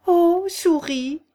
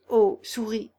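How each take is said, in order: First: «Ô» stretched long and high, very slow and loud; solemn address. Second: Said in the usual way. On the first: A narrator's reading. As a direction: hail the mouse ceremoniously with a drawn-out «Ô souris». («Ô» très long, aigu et fort, solennel) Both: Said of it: "la bonne manière d'interpeller une souris".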